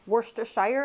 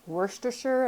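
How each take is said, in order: First: The ending does not sound like Hampshire's. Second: The ending sounds like the end of Hampshire. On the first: The speaker calls it wrong. "not like Worcestershire? I used to say that" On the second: The speaker calls it right. "it's Worcestershire"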